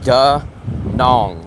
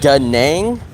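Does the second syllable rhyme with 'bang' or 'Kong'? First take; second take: Kong; bang. First: The second syllable has an 'o' vowel, like Kong. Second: The second syllable has an 'a' vowel, like bang. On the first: This is how the speaker hears locals say it. "what I hear is da nong, like that rhymes with Hong Kong" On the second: This is how viewers think locals say it. "You guys think they say da nang"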